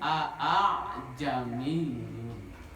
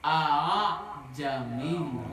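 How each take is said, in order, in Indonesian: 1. Hamza kedua diucapkan penuh dan biasa. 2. Hamza kedua dilunakkan, setengah menuju vokal. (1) "kalau dibaca secara logat Indonesia dibacanya"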